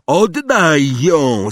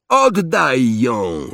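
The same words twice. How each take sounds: First: Loud, high, drawn-out demand; Harry calling out. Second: Restrained roar, higher and drawn out; understated bellow, stretching the demand; Harry roaring. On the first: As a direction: call it across a distance, stretched and raised. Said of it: "zawołał Harry". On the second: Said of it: "ryknął Harry". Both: A narrator's reading.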